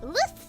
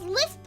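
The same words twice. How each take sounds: First: The s sound is lisped, like th. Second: The s sound is clear, without a lisp.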